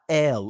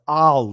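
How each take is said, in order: First: The name begins with an 'eh' vowel. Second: The name begins with an open 'ah' vowel. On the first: The speaker calls it wrong. "not L" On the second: The speaker calls it right. "It was Al"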